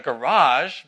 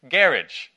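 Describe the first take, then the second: First: It is said with an American pronunciation. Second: It is said with a British pronunciation. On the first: "the Brits don't call it a garage" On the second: "but a what?"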